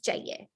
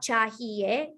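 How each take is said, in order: First: The word is said quickly with sounds reduced. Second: Every syllable of the word is said fully. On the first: "when people talk fast, it essentially just becomes chahiye" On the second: "even though it's spelled out chahiye"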